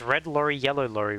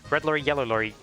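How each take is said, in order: First: The phrase is said slowly and carefully. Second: The phrase is said quickly and rushed. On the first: "I had to slow down my speech" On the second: "if I try to do it quickly"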